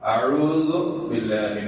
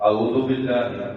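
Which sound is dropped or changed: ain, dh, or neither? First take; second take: neither; ain. First: Both the ain and dh sounds are pronounced. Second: The ain sound is dropped from the first word. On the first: The speaker calls it right. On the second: The speaker calls it wrong.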